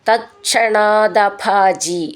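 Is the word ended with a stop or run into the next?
run on. The word runs into the next with a d sound. "ചേർത്ത് ചൊല്ലുമ്പോൾ"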